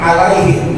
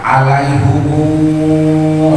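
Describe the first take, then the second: First: The word ends short with him. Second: The word ends lengthened with humu.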